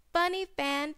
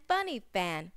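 First: Funny fan said high, stress on Funny; phrase said rising. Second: Funny fan said low and softer, falling; phrase said falling. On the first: Teacher models Funny fan for children, high. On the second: Teacher repeats funny fan for children, low falling. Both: Shown as a demonstration. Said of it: "p, p".

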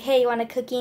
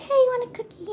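First: Said in the usual way. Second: Much higher, sweet cuddly monster voice; friendly cute voice. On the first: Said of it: "just be like". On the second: Retold or imitated. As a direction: coo it like a cuddly creature offering a treat. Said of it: "so friendly".

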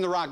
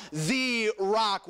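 First: Said in the usual way. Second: THE drawn out before rock; "the" stretched and set apart; stress on THE. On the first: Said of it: "I'm not speaking about Dwayne". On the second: Shown as a demonstration. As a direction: lean hard on "the", as the one and only. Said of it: "I'm speaking about the rock".

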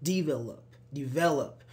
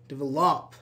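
First: "develop" with the middle syllable stressed; de-VEL-op, weight in the middle; correct stress on develop. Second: "develop" with the last syllable stressed; de-vel-OP, weight on the end; wrong stress on develop. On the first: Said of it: "we don't say develop, say develop". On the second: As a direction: wrongly punch the final "-lop" in "develop". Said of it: "we don't say develop". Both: Shown as a demonstration.

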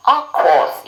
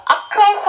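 First: "across" with a lip-rounded R. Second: "across" mispronounced with an L for the R. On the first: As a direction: round your lips like a vowel for the R in "across". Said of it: "제가 입을 동그랗게 모음처럼 모아달라고". ("across"의 R을 입술 동그랗게 모아서) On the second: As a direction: say "across" wrongly, higher, with an L sound. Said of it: "그건 L 사운드예요". ("across"의 R을 L처럼 잘못 발음) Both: Shown as a demonstration.

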